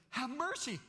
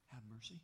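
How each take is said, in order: First: Much higher and louder plea. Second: Much softer, quiet plea. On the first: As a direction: cry out the plea. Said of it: "No, he says". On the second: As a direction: breathe the plea gently. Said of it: "He says it softly". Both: Acted.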